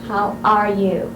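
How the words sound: The stress is on "are".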